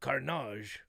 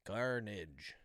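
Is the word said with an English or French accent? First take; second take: French; English. First: It is said with an exaggerated French accent. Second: It is said with a plain English accent. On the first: "we just pretend like he's a super super French guy" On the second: "they have these robots be like"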